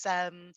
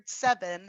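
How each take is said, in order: First: "sem", seven chopped to one syllable. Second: "seven" said with both syllables; two-syllable seven. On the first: Teacher showing a singing shortcut, "sem" as one syllable. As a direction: chop it down to "sem". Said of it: "one syllable". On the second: Teacher explaining syllable count, "seven" in two syllables. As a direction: say "seven" in full, se-ven. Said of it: "has two syllables". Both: Shown as a demonstration.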